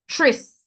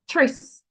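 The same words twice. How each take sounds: First: The syllable begins with a ch sound. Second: The syllable begins with a plain t-r sound. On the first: The speaker calls it right. "we're looking for that ch sound" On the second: The speaker calls it wrong. "we're not looking for actress. Very difficult for me to pronounce"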